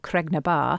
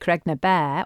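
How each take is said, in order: First: The last word sounds like 'bar'. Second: The last word sounds like 'bear'. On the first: This is the newer form used for about seventy years. "that place name has changed to become Bar" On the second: This is the older, traditional form of the name. "Bear is the traditional way of pronouncing it"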